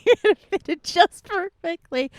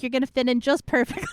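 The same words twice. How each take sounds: First: Higher, playful sing-song repeat; squeaky repeat. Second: Said in the usual way. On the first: Acted. To a new chatter, a teasing higher repeat. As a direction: say it again, pitched up and teasing.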